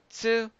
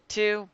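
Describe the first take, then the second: First: The syllable starts with a ts sound. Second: The syllable starts with a plain t sound. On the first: The speaker calls it right. "but say tsu" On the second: The speaker calls it wrong. "They don't say tu"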